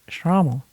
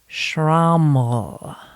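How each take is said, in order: First: The word is said quickly and casually. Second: The word is said slowly and drawn out. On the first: "I would be able to be really hip and just say Schrammel" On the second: "I'm going to kind of draw it out"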